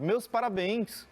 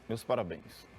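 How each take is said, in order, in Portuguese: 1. É dito de forma calorosa, com emoção viva. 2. É dito de forma neutra, sem emoção. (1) "olha, eu estou alegre" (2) "Você não pode dizer assim ... cadê a alegria? ... você está frio assim"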